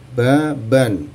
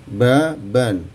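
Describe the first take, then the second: The two takes are said the same way.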